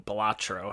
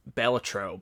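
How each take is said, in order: First: Balatro stressed on a middle "ah", buh-LAH-tro; alternative pronunciation. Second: Balatro stressed on the first syllable, BEL-uh-tro; alternative pronunciation. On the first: Offering viewers another way to say the game title, Balatro stressed mid-word. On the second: Offering viewers one way to say the game title, Balatro stressed up front. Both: Shown as a demonstration. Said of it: "however you wanna say it".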